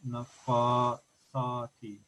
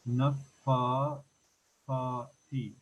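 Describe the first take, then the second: First: The middle consonant is an 's' sound. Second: The middle consonant is a soft 'th' sound. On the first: The speaker calls it wrong. "not nafa sa ti" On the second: The speaker calls it right. "this should be pronounced nafa fa ti"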